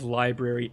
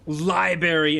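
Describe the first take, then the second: First: The first R sound is kept. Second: The first R sound is dropped. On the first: The speaker calls it right. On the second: The speaker calls it wrong.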